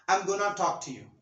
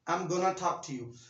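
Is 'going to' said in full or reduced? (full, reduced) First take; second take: reduced; reduced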